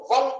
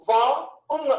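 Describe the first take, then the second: First: Said in the usual way. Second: వన్ broken as "వా... ఉన్"; వన్ wrongly cut into వా and ఉన్; split into two parts. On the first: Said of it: "ఒకేసారి గాని మనం పలికితే". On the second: Shown as a demonstration. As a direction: say వా, pause, then ఉన్. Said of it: "ఒకే ముక్కతో గాని ఒకేసారి గాని".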